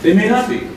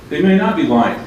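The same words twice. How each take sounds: First: "not" jumps high with a rising tune; stress on NOT. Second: "may" is the strongest word and the line falls; stress on MAY. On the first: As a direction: lift "not" sharply and leave it hanging up. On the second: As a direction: lean on "may" and let the line fall to "lying". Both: Shown as a demonstration.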